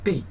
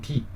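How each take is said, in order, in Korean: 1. 중국어 모음으로 발음해요. 'bay'처럼요. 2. 한국어 모음으로 발음해요. 'bee'처럼요. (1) "중국말로는 준비라고 하는데 음이 거의 비슷하잖아요" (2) "우리는 비"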